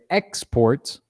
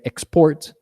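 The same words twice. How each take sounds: First: The stress is on the first syllable. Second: The stress is on the second syllable. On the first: It is used as a noun. "it's a noun" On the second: It is used as a verb. "that's a verb"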